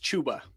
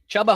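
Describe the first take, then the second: First: The first vowel is long, as in 'boot'. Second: The first vowel is short, as in 'cup'. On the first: The speaker calls it right. "I've actually been educated that it's Chuba" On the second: The speaker calls it wrong. "Chubba Hubbard's way more fun"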